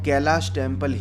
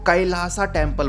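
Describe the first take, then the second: First: The name ends with an 'sh' sound. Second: The name ends with an added 'sa' syllable. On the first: This is the proper Hindi way of saying it. The speaker calls it right. "प्रॉपर pronunciation ही करूंगा, मैं इसको कैलाश temple ही कहूंगा" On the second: This is the anglicized way of saying it. The speaker calls it wrong. "बहुत सारे अंग्रेजी के दीवाने इसको कैलासा टेम्पल बोलते हैं"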